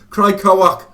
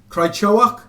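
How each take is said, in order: First: The middle syllable is said as "ko". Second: The middle syllable is said as "cho". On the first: The speaker calls it right. "That's his name, I think, guys" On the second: The speaker calls it wrong. "No, I said Cho again"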